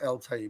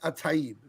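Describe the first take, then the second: First: The name begins with an 'el' sound. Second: The name begins with an 'at' sound. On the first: This is the form the name took when translated. The speaker calls it wrong. "It's not El Taib" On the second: This is the original Arabic form of the name. The speaker calls it right. "really, it's Ataib"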